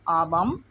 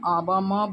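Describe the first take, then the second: First: The final m is bare, without a vowel. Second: The final m is sounded with a full vowel. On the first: The final letter carries a halant mark. "हलंत है बोल के हम आबम उच्चारण किए" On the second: The final letter has no halant mark. "अगर हलंत नहीं होते तो हम आबा म बोलते"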